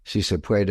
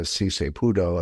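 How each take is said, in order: First: Said in the usual way. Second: SI SE PUDO as a botched "sí se puede"; mock mispronunciation. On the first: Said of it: "she thinks". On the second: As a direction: mimic someone mangling the Spanish slogan with PUDO. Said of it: "she thinks si se puede is".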